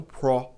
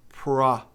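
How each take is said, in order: First: "pro" with a plain O; rounded O in "pro", no A in it; wrong vowel. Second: "Pro" said as airy "prah"; slow "Pro" with a light A in the vowel; open vowel. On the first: Teacher shows what to avoid, plain O vowel. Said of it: "e não pro". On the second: Teacher contrasts vowels, open A-coloured "Pro". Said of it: "tem um leve A aí". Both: Shown as a demonstration.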